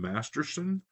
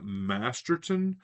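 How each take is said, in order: First: An S sound comes before the final syllable. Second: A T sound comes before the final syllable. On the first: The speaker calls it wrong. "I always put an S in there instead of the T" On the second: The speaker calls it right. "and it's Graham Masterton"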